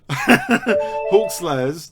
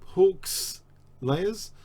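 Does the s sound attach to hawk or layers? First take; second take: layers; hawk. First: The s sound begins the second word. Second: The s sound ends the first word. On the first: The name means people who kill hawks. The speaker calls it right. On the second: The name means layers of hawks. The speaker calls it wrong.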